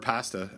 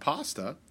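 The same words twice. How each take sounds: First: It is said with an Ontario pronunciation. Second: It is said with a non-Ontario pronunciation.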